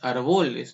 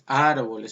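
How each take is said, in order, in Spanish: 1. El acento cae en una sílaba posterior. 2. El acento cae en la primera sílaba. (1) "No es árboles" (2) "es árboles"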